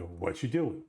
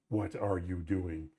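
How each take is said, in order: First: "what you doing" run together fast and loose, no "are"; relaxed Canadian "what you doing" with words blended; casual reduced English. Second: "What are you doing?" said slowly with every word fully pronounced; textbook-careful "What are you doing?", no reductions; overly proper English. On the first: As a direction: slur "what you doing" into one easy relaxed phrase. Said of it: "there's a flow to these things". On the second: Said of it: "Not like". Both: Shown as a demonstration.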